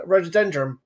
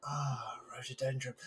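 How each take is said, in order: First: Said in the usual way. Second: Soft, awed sigh of recognition; hushed awe. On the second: Retold or imitated. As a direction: breathe it out in wonder. Awed reaction to the same word.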